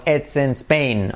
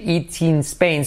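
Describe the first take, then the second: First: "It's" and "in" said short, like "ets en"; correct pronunciation. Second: "It's" said as "it" with a long i; the incorrect "It's in Spain" with "it"; wrong pronunciation. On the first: Teacher showing the right short vowels. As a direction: clip "It's in" short and quick. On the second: Teacher showing the wrong way to say it. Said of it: "No se debe decir". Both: Shown as a demonstration.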